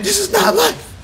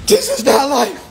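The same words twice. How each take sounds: First: "not" cried out much higher; wailing stress on not. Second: Higher, louder cry of despair; despairing worker. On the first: People crying inside about work, wailing "not" much higher. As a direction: pitch "not" way up in a wail. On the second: People crying inside about work, quoted in a higher voice. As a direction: voice a worker fed up with life. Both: Retold or imitated. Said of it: "A lot of people's crying inside".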